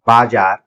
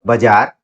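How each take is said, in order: First: बाजार with both vowels long, "baa-jaar"; long first vowel. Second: बाजार with a short first vowel, "ba-jaar". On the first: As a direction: hold a full long "aa" in the first syllable of बाजार. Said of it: "सही जवाब है option C". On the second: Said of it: "शुद्ध वर्तनी वाला शब्द". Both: Shown as a demonstration.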